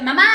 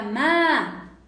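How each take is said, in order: First: Put-on high, loud child's "Mamá"; yelled call for mum. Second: Drawn-out, raised call of "Ma"; modulated call for mum. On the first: Girl demanding her mother's attention, loud high yell. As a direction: call out sharply for your mother. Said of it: "En lugar de decirte". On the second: Girl calling her mother with intention, modulated drawn-out call. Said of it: "te diga, "Ma". ¿Te das cuenta el cambio?". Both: Shown as a demonstration.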